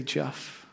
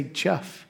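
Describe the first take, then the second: First: Barely-there gentle calling of Jeff; a gentle one-word call; soft name call. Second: Gentle quiet calling of Jeff; a tender one-word call; soft name call. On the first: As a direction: say Jeff very softly, like a breath. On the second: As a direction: say Jeff softly, rising at the end. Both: Pretend. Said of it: "all he has to do is say".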